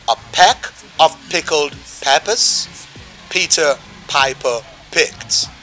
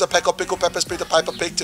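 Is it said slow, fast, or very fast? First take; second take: slow; very fast. First: It is said at a slower pace. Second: It is said at the fastest pace.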